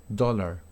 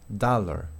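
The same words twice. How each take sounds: No difference in how they are said.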